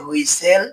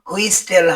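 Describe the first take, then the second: First: The t sound is silent in the middle. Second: The t sound is pronounced in the middle. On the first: The speaker calls it right. "এর উচ্চারণ হবে" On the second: The speaker calls it wrong. "হবে না"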